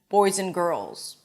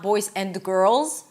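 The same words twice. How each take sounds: First: The words are reduced and run together. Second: Each word is said separately and fully. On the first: The speaker calls it right. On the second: The speaker calls it wrong.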